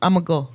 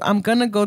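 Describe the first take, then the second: First: Going to is squeezed down even further. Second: Going to is shortened to gonna. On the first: "we butcher shit"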